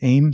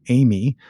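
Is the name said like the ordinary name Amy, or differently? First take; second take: differently; like Amy. First: The name is not said like Amy. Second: The name is said like Amy. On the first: The speaker calls it wrong. "the way I just mispronounced it" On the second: The speaker calls it right. "because I've heard you say it now"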